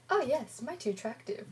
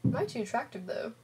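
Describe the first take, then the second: First: Lightly acted starstruck agreement, high on "Oh yes"; swooning a little in agreement; starry-eyed. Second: Smug self-admiring question; vain question. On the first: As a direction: play a mildly smitten admirer. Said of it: "with stars in our eyes". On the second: Acted. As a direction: ask it like you know you're gorgeous. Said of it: "That Gage never does any work".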